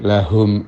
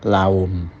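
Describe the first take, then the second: First: The throat h is clear but not forced. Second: The throat h is left out entirely. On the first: The speaker calls it right. "Jadi lahum ajruhum" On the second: The speaker calls it wrong. "tidak pula laum"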